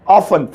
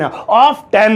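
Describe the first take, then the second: First: The t is silent; second syllable is 'fun'. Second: The t is sounded in the second syllable. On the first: The speaker calls it right. "इसे बोलिए ऑफन" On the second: The speaker calls it wrong. "टेन आ रहा है"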